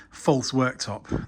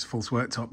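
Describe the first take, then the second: First: False worktop in slow air quotes; slow, set apart: "false worktop". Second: Said in the usual way. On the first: Shown as a demonstration. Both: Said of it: "that's me doing air quotes".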